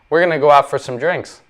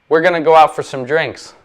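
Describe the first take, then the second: Both takes have the same delivery.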